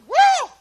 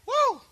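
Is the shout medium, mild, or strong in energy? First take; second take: medium; mild. First: The shout is noticeably more energetic. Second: The shout is fairly mild and restrained.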